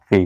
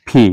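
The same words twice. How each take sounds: First: "পি" with unaspirated p; wrong P sound. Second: "পি" with aspirated p; "পি" as English "phee"; correct P sound. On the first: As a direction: say "পি" with no puff of air. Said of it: "not পি". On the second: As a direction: say "পি" with a puff of air. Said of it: "This is পি". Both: Shown as a demonstration.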